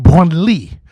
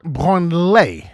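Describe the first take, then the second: First: Branly said the proper French way; correct French pronunciation. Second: Branly drawn out slowly in the wrong way; wrong pronunciation, slow. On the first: Comedian demonstrating the right French way to say it. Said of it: "It's pronounced Branly". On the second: Comedian slowly showing how not to pronounce it. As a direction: stretch Branly out, deliberately wrong. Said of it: "not Branly". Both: Shown as a demonstration.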